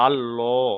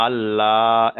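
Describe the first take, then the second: First: "আল্লাহ" with a rounded, heavy "lo"; thick Allah. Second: "আল্লাহ" with a long light "laa"; thin Allah. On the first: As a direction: slowly say "Al-lo" for "আল্লাহ". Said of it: "যদি ল উচ্চারণ করি তাহলে পুর". ("আল্লাহ" পুর করে, "আল্ল") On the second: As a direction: draw out an open, thin "Al-laa". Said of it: "লা করে পড়তে হবে". ("আল্লাহ" বারিক করে, টেনে "আল্লা") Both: Shown as a demonstration.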